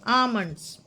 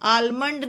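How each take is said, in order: First: The L sound is left silent in the word. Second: The L sound is pronounced in the word. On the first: The speaker calls it right. "ये आमंड्स का एल silent है" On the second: The speaker calls it wrong. "आलमंड नहीं"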